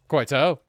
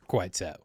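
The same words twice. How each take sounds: First: "Quite so" in a hammed-up posh English accent, rising on "so". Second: Said in the usual way. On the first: Ending a chat with a guest in a mock posh English accent. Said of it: "my shitty posh voice always ends every conversation with "quite so". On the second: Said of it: "my shitty posh voice always ends every conversation with".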